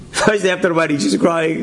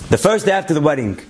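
First: Laughing through the words, quicker; laughing repeat. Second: Said in the usual way. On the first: Real, not acted. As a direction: chuckle as you repeat it, amused. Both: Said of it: "laughs, repeats it".

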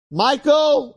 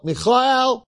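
First: High, shouted "Michael" in English; calling out. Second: "Michael" called high as mee-kha-EL; Hebrew pronunciation. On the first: Heavenly judge summons Michael by English name, high call. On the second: Heavenly judge summons Michael by Hebrew name, high call. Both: Acted.

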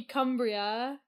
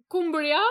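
First: Cumbria with "uh", as "KUM-bree-a"; corrected Cumbria. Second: Cumbria with "oo", as "KOOM-bree-a"; unsure Cumbria. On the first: Shown as a demonstration. Repeating the corrected county name doubtfully, Cumbria as "KUM-bree-a". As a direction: open first vowel in Cumbria, like "come". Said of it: "It just sounds weird". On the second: Real, not acted. American co-host trying an English county, Cumbria as "KOOM-bree-a". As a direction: round the first vowel of Cumbria to "oo". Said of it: "how do I say that".

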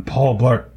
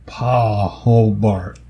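First: Said in the usual way. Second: "Paul" drawn out into two parts, PAW-ul; punning pronunciation. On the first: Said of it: "No, that was bad". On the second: Shown as a demonstration. Testing a dog pun, "Paul" stretched as "paw-l". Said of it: "like, P A W L".

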